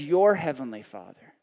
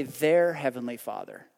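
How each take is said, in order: First: "Your" pressed and held, with a lower voice on "heavenly Father"; "Your" stressed in "Your heavenly Father". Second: "their" lightly marked, set against "your"; their said as the wrong word. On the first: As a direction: lean hard on "Your" as the word that matters. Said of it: "I find it interesting he used the word "your". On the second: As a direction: stress on "their" in "their heavenly Father". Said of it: "but he does not say". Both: Shown as a demonstration.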